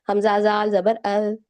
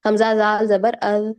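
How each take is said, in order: First: "अल" with the zaal said softly, lightly, not as a hard z. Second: "अज" said with a hard z like jim, the wrong way; wrong z sound. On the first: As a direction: say "अल" gently, tongue tip light. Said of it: "उसको नरम रखें". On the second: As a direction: demonstrate the mistake "अज" with a buzzing z. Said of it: "अज नहीं करना". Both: Shown as a demonstration.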